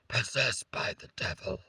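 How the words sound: It is said in a put-on, possessed-sounding voice.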